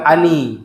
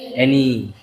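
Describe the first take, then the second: First: It is read the way Indonesian spelling suggests. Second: It is read with the English pronunciation. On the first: The speaker calls it wrong. "Itu bacanya bukan ani. Kalau ani itu bahasa Indonesia ya" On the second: The speaker calls it right. "tapi bacanya eh any"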